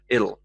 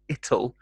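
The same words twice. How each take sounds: First: The middle consonant is a soft d sound. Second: The middle consonant is a hard t sound. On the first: "softened to more of a D sound" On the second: "the hard T sound, t"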